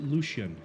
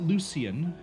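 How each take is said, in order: First: The name does not sound like 'Lucy'. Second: The name sounds like 'Lucy' with an extra ending. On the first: The speaker calls it right. "I pronounce it Lucian" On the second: The speaker calls it wrong. "it just sounds like I'm calling him Lucy"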